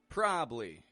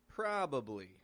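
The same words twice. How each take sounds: First: One syllable is dropped, making it short. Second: Every syllable is said and stretched out. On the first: "Sometimes we drop a syllable right out of there" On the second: "Other times we stretch each syllable out more"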